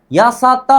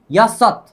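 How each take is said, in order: First: यासत with an extra open "aa" on the end; यासत ending in a full vowel; wrong pronunciation. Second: यासत in two syllables, stopped on the final t; crisp final t in यासत, ya-sat; correct pronunciation. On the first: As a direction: sound out यासत as three syllables, ya-sa-taa. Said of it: "नहीं". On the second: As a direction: end यासत short, with no vowel after the t. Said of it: "क्या बोलना है". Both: Shown as a demonstration.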